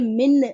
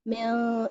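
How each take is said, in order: First: The n is pronounced fully and clearly. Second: The n is hidden into a nasal sound. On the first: The speaker calls it wrong. "मिन ऐसे टच नहीं करेंगे" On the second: The speaker calls it right. "दूर रखेंगे। म्यां म्यां इस तरह पढ़ेंगे"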